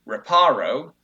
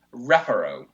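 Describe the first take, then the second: First: "reparo" as re-PAH-ro; "reparo" with a stressed, drawn-out PA; stress on second syllable. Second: "Reparo" as REP-a-ro; "Reparo" with the beat at the front; stress on first syllable. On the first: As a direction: lean slow and loud on the middle of "reparo". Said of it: "the second syllable". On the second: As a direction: punch the first syllable of "Reparo", short middle. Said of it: "it should go on the first syllable". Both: Shown as a demonstration.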